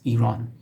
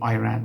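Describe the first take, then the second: First: The first vowel is an 'ee' sound. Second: The first vowel is not an 'ee' sound. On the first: The speaker calls it right. "It's Iran" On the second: The speaker calls it wrong. "which is not correct"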